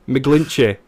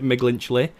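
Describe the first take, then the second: First: The name has no L sound before the end. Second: The name has an added L sound before the end. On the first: The speaker calls it right. "And I got it right" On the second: The speaker calls it wrong. "I've been pronouncing it wrong"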